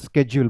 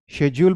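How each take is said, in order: First: The word begins with an 'sk' sound. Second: The word begins with an 'sh' sound. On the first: This is the American pronunciation. "American English में आप स्केड्यूल बोलेंगे" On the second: This is the British pronunciation. "British English में आप शेड्यूल बोलेंगे"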